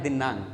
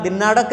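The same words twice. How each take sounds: First: दिनांक with a nasal ना and a clean क at the end; correct pronunciation. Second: दिनाड़क said with a retroflex ड़ in the middle; wrong pronunciation. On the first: Teacher models the right दिनांक for students. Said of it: "इसका उच्चारण करना है दिनांक". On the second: Teacher warns students against saying दिनाड़क. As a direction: say दिनाड़क with a hard ड़, as the error. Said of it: "इसका उच्चारण दिनाड़क नहीं करना है". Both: Shown as a demonstration.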